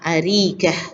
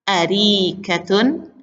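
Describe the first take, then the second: First: The word ends bare, without final vowel. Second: The word ends with a vowel and n.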